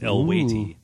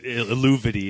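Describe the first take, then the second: First: The name is said in a shorter, contracted form. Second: The name is read out the way it is spelled. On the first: The speaker calls it right. "but it's Elwaiti" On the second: The speaker calls it wrong. "is the way it's spelled"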